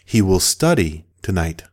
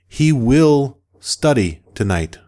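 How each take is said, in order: First: The words flow together without any breaks. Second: The words are separated with small breaks. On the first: The speaker calls it right. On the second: The speaker calls it wrong.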